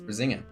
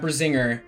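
First: The name ends with an 'ah' sound. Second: The name ends with an 'er' sound. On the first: The speaker calls it right. "the R at the end is pronounced as an A" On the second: The speaker calls it wrong. "It's not Brisinger"

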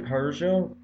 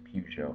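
First: Peugeot is pronounced the non-American way. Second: Peugeot is pronounced the American way. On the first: "I say Peugeot" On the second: "everyone else, I guess in America, says Peugeot"

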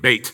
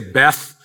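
First: The word ends with a 't' sound. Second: The word ends with a 'th' sound. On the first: "In Israel, it's pronounced like Beit" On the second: "when you say Beth"

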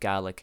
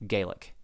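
First: The word is said the way Scots say it. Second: The word is said unlike the Scots say it. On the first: "it sounds a lot more like Gaelic" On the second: "than Gaelic"

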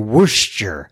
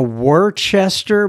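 First: It is shortened, with written syllables dropped. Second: Each written syllable is pronounced as spelled. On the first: The speaker calls it right. "I think you say Worcester" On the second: The speaker calls it wrong. "it looks like a Worcester"

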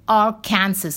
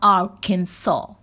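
First: The ending sounds like the word Kansas. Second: The ending does not sound like Kansas. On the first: The name follows the spelling of the neighboring state. The speaker calls it right. "If it is Arkansas is Kansas, then Arkansas should be Arkansas" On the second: The name follows its established local pronunciation. The speaker calls it wrong. "and not Arkansas"

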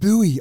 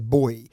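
First: It is said the American way, like 'boo-ee'. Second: It is said as one syllable, like 'boy'.

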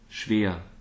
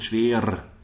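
First: The final R is not rolled. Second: The final R is rolled. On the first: The speaker calls it right. "it's better to go" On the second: The speaker calls it wrong. "I wouldn't say"

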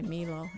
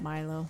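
First: The name is pronounced the Italian way. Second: The name is pronounced the English way. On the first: "If you're Italian, you're going to say Milo" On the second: "instead of"

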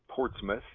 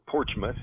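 First: The middle is said with a 't-s' sound. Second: The middle is said with a 'ch' sound.

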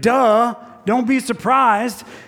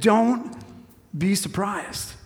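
First: It sounds dismissive and matter-of-fact. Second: It sounds gentle and empathetic.

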